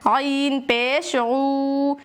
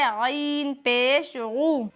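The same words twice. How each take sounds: First: The final vowel is drawn out long. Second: The final vowel is short and quick. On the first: The speaker calls it wrong. "इस तरह से खींच कर पढ़ते हैं। ये बहुत बड़ी गलती है" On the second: The speaker calls it right. "इस तरह से बगैर खींचे जल्दी पढ़ना है"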